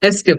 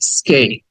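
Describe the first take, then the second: First: A vowel comes before the s sound. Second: The word starts directly with the s sound. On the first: The speaker calls it wrong. "এসকেপ না" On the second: The speaker calls it right. "উচ্চারণ হবে স্কেপ"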